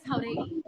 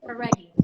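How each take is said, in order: First: Jauregui with breathy Spanish J, "how-REH-"; Spanish pronunciation. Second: Jauregui ending like English "Reggie"; Americanized pronunciation. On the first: Guest giving her last name, Spanish pronunciation. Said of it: "I pronounce it two different ways". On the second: Guest giving her name's other version, Americanized pronunciation. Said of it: "Reggie is the way people say it". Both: Shown as a demonstration.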